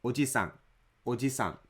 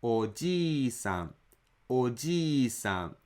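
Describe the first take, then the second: First: Oji-san said quickly with a short ji. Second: Oji-san said slowly with ji held for two beats; long ji. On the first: Teacher imitating learners who say uncle by mistake. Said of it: "they hastily say ji". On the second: Teacher modelling grandpa with a long ji. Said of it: "extend another one mora". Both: Shown as a demonstration.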